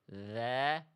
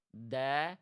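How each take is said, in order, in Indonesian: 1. Konsonannya mengalir terus, ujung lidah menyentuh gigi. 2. Konsonannya tertahan, bunyinya seperti d. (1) "ujung lidahnya menyentuh ke ujung gigi seri atas, suaranya mengalir tidak tertahan" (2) "Bukan seperti ini"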